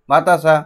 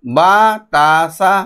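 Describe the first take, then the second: First: Said in the usual way. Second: "বাতাসা" very slow, বা-তা-সা; sounding out. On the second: Shown as a demonstration. Teacher shows pupils another word, "বাতাসা" stretched by syllable. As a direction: hold every vowel of "বাতাসা", rising at the end. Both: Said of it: "এটা যদি বলি".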